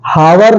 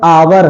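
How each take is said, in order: First: The h is sounded at the start. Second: The h is silent at the start. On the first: The speaker calls it wrong. "हावर नहीं है" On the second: The speaker calls it right. "आवर है"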